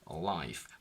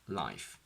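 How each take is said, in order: First: It is said with a dark L. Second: It is said with a clear L. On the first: "So we say in American" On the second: "whereas in British, we would say"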